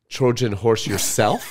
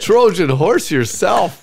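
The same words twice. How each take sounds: First: Slow, amused "Trojan horse yourself" as a question; "Trojan horse yourself" drawn out with a laugh, questioning; puzzled echo. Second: Loud, high, drawn-out "Trojan horse yourself"; "Trojan horse yourself" slow, higher and louder, rising at the end; incredulous repeat. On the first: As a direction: repeat "Trojan horse yourself" slowly, rising in disbelief. Baffled repeat of odd phrase. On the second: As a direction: belt out "Trojan horse yourself" slowly in mock disbelief. Mocking repeat after being doubted. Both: Real, not acted.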